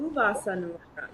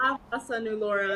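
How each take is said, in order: First: Quick, light Ooh, Vasa Nulora; Ooh, Vasa Nulora with a quick, playful ooh; cooing ooh. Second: Imitating ah. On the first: Shown as a demonstration. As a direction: open on a soft cooing Ooh. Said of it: "and mine is". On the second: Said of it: "So yours is like".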